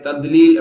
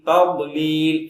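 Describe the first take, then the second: First: The middle consonant sounds like a plain d. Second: The middle consonant is a heavy, thick dh. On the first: The speaker calls it wrong. "தால் மாதிரி தத்லீல் அப்படி சொல்லுவாங்க. அதுவும் தப்பு" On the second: The speaker calls it right. "ஓர பற்கள்ல தான் ஓர நாக்குகள் அழுத்தமா படும்"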